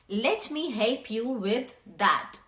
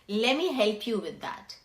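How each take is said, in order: First: Every word is said fully and separately. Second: The words are contracted and run together.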